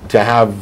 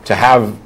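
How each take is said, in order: Both takes have the same delivery.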